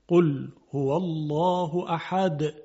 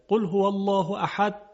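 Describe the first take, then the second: First: The final d has a clear echoing release. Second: The final d is swallowed and unclear. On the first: The speaker calls it right. "قلقله دال رو باید بیاریم" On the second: The speaker calls it wrong. "بعضیا اینطوری میگن ... یعنی دال وضوح نداره،"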